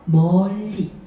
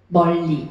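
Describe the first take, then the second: First: The vowel is stretched out long. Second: The word is said short and plain. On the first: "느낌을 더 충분히 표현하기 위해서 멀리 이렇게" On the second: "이렇게도 할 수 있지만"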